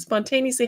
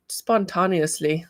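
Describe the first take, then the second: First: Said in the usual way. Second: Slow odd-accented "spontaneously", stretched "TAHN" in the middle; odd accidental accent. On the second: Real, not acted. Reading a viewer's comment aloud, slipping into an odd accent. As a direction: say "spontaneously" slowly with an accidental accent, "spon-TAH-nee-usly". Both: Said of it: "I don't know what kind of accent that is".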